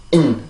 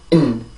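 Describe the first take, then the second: Both takes have the same delivery.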